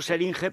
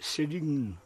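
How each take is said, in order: First: The name ends with an extra syllable, like jeringa. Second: The name ends without an extra final syllable. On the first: This is the speaker's own pronunciation. "Yo le llamo Seringe, pero reconozco que suena un poco feo Seringe, es como jeringa" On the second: This is another person's English-learned pronunciation. "pues le llama Sering. Dice Sering"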